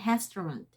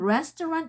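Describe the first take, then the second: First: The word begins with an H sound. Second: The word begins with an R sound. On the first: The speaker calls it wrong. "you say restaurant. So the R become H" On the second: The speaker calls it right. "instead of saying restaurant"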